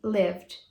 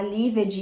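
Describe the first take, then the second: First: "lived" as one syllable ending in D; correct ED pronunciation. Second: "lived" in two syllables, liv-ed; mispronounced ED. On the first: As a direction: say "lived" as "livd". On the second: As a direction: say "lived" wrongly, sounding out the ED. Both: Shown as a demonstration. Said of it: "Olha a diferença".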